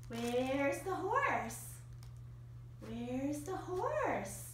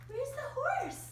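First: Slow and low. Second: Said in the usual way. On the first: Real, not acted. Owner repeating cue to dog.

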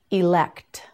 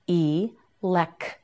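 First: Said in the usual way. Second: "Elect" broken into ee, lek, t, with gaps; sound by sound. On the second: Shown as a demonstration. Teacher modelling "Elect" for learners, sound by sound. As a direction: separate the final t of "Elect" after a pause.

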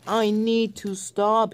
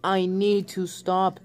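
First: Begging to stop as he rolls out of control; desperate cry. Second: Said in the usual way. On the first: Acted. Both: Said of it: "he cried".

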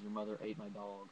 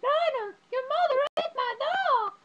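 First: Said in the usual way. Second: Very high, loud, drawn-out shriek; outraged screech, imitating the film; movie character shriek. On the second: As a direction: scream it in a hammed-up falsetto. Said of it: "And she's like".

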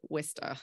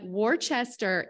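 First: Worcester as "Wis-ter", short i, no r; Worcester said "Wister". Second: Worcester spelled out "Wor-chester", slow and wrong; wrong Worcester pronunciation. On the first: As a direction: say Worcester like a lifelong local: "Wister". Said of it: "if you've lived in Worcester your whole life". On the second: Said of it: "is not okay". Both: Shown as a demonstration.

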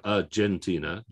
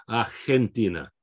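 First: "Argentina" with a J, ar-JEN-tina; English J sound. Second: "Argentina" as ar-HEN-tina; Spanish "Argentina", H in place of J; Spanish H sound. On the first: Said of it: "like a J sound". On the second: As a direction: breathe the g in "Argentina" as an H. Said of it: "We've got an H sound". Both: Shown as a demonstration.

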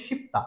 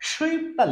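First: শিপ্তা with a plain "shi", no w-glide; correct pronunciation. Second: সুইপ্তা said as written, with a "shwi" glide; spelling-based pronunciation. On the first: Teacher giving learners the right Korean pronunciation, correct model. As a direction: say শিপ্তা as "ship-ta". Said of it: "right উচ্চারণ হবে". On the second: Teacher reading out the written Korean word, spelling-based pronunciation. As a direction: read সুইপ্তা letter by letter, "shwip-ta". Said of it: "right উচ্চারণ হবে শিপ্তা". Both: Shown as a demonstration.

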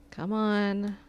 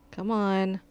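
No difference in how they are said.

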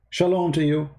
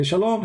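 First: Said in the usual way. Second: Rising mock Shalom, higher and brighter; mock reply. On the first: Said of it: "you say to people". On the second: Greeting repeated, a higher mocking Shalom. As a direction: toss back Shalom higher. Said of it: "They say".

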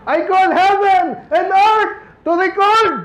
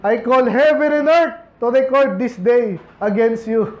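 First: Moses' call, shouted high and slow; proclaiming shout. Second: Said in the usual way. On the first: Acted. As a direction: proclaim it like a prophet crying out. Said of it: "sumisigaw na rin siya eh". (malakas na sigaw ni Moses) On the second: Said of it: "plain reading of verse".

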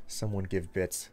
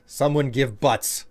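First: Said in the usual way. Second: "butts" drawn out as a joke; butts said slowly. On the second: Shown as a demonstration.

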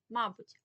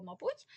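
First: «мабуть» as a loud МА-буть; stress on first syllable. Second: «мабуть» as ма-БУТЬ, pitched up; stress on second syllable. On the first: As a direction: put the weight on МА in «мабуть». (наголос на перший склад: «мАбуть») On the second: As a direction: put the weight on БУТЬ in «мабуть». (наголос на другий склад: «мабУть») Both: Shown as a demonstration. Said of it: "наголос".

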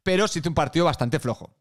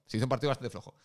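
First: Said in the usual way. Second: Softer, trailing repeat. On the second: Acted. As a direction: drop it softly the second time.

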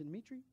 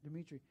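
First: Dmitri? asked with a rising question tune; questioning rise. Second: Said in the usual way. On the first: Shown as a demonstration. Preacher checking the name Dmitri? with a rising tone.

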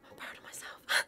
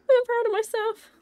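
First: Very soft, voiceless self-praise; whispered pride. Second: High, happy self-praise said aloud; voiced pride. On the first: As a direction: whisper it to yourself after the win. Self-praise after the win. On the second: Repeats self-praise out loud. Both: Real, not acted.

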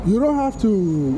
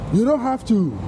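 Both takes have the same delivery.

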